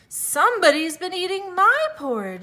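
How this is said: It is said in a medium-pitched voice.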